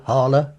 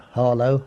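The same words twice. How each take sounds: First: "Harler" ending in a schwa, no O; local Essex pronunciation. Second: Said in the usual way. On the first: Shown as a demonstration. Listing vanished Essex place-name sounds, local pronunciation. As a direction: weaken the last vowel of "Harler" to "uh". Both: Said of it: "the O sound is, was never used".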